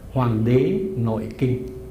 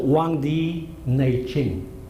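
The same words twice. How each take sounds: First: The title is pronounced the Vietnamese way. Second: The title is pronounced the Mandarin Chinese way.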